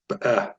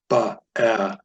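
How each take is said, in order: First: The first short vowel is barely pronounced. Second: The first short vowel is fully pronounced. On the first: The speaker calls it right. "So barely pronounce it" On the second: The speaker calls it wrong. "Not, not ba-eh"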